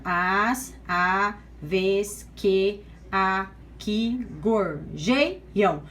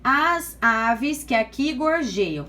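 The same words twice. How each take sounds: First: "As aves que aqui gorjeiam" very slow and low, one syllable at a time; measured syllable-by-syllable reading of "As aves que aqui gorjeiam"; separated syllables. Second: Said in the usual way. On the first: Shown as a demonstration. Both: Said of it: "Então, vamos lá separando".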